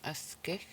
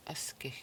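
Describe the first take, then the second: First: Said in the usual way. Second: Whispered, almost no voice. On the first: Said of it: "three syllables". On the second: Shown as a demonstration. Whispered repeat of the word.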